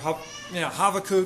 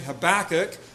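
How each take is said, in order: First: The middle consonant is a V sound. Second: The middle consonant is a B sound. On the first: This is closer to the original Hebrew way of saying the name. "if we were to try to go Hebrew with it, the B sound is actually a V sound" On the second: This is the familiar English way of saying the name. "I kind of grew up saying Habakkuk"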